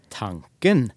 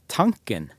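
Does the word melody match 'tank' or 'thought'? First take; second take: thought; tank. First: It is said with the word melody meaning thought. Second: It is said with the word melody meaning tank. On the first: It means a thought in one's head. "så er det sånne ting som jeg i beste fall har inne i mitt hode" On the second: It means the fuel tank in a car. "så er jo det den beholderen som jeg har bensin på i bilen"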